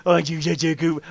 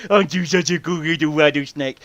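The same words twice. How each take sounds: First: Put-on cooing baby talk again; puppy talk. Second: Put-on cooing baby talk to a pet; puppy talk. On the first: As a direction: coo at the snake like a pet. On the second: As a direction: coo at the snake like it's a puppy. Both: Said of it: "talking to a rattlesnake like a puppy".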